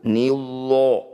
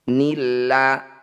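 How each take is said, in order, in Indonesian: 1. Bunyi 'l' berat, dengan 'o' yang membulat. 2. Bunyi 'l' tipis, dengan 'a' yang ringan. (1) "tidak perlu nillo, jangan" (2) "tarkik atau tipis, lanya dibunyikan apa adanya"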